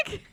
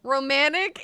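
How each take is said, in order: First: "romantic" with the T swallowed into a glottal stop; North Carolina dropped T. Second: Said in the usual way. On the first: Shown as a demonstration. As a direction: say "romantic" Southern style, no T before the end. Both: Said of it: "is very different from".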